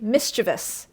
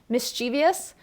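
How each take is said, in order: First: No extra 'ee' sound comes before the ending. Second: An extra 'ee' sound comes before the ending. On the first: The speaker calls it right. "is like the correct pronunciation" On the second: The speaker calls it wrong. "that's actually a mispronunciation"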